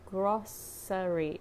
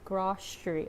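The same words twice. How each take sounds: First: The middle consonant is an s sound. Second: The middle consonant is an sh sound. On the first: This is the dictionary pronunciation. "it said grocery, like with a sound" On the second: This is how people actually say it. "like sh sound"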